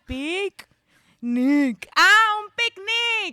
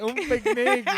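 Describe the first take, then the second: First: Put-on high, slow, loud Brazilian accent. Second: High mock Brazilian; echoed accent. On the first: Roommate explaining the word in a high Brazilian accent. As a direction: drag out un picnic like the roommate. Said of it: "she had to write". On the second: Cohost echoing the Brazilian picnic line high. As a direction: repeat it in a high put-on accent.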